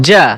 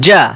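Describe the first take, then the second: The two takes are said the same way.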